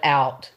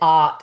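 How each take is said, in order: First: The vowel is a gliding 'ow' sound. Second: The vowel is a flat 'ah' with no glide. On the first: "instead of "out."" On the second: "asked me if I was from Pittsburgh because I said "ot""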